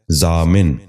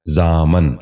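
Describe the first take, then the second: First: ضامن ending in "-min", "zaa-min"; correct pronunciation. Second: ضامن ending in "-man", "zaa-man"; wrong pronunciation. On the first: Teacher giving viewers the model, correct pronunciation. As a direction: say ضامن as zaamin. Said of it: "درست تلفظ ہے". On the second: Teacher showing viewers the mistake, wrong pronunciation. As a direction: say ضامن as zaaman. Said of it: "یہ غلط تلفظ ہے". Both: Shown as a demonstration.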